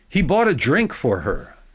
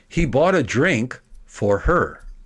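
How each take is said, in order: First: It is faster, with only a slight break. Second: A long pause follows the direct object. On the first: "at a quicker speed. I'll eliminate the, the dramatic break" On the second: "making a big pause after the direct object"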